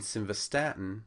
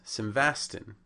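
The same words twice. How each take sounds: First: Simvastatin as sim-va-STAT-in; stress on third syllable. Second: Simvastin shortened to three syllables, sim-VAS-tin; mispronounced drug name. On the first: Lecturer showing the correct drug name, simvastatin stressed on third syllable. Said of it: "on the third syllable". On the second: Lecturer showing a common error, simvastin as mispronunciation. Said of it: "also on the first syllable". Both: Shown as a demonstration.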